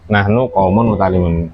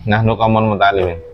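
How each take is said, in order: First: The last word ends with an 'oon' sound. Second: The last word ends with an 'een' sound. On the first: The speaker calls it right. "Kan ini jamak mudzakkar salim" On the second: The speaker calls it wrong. "Mana yang salah?"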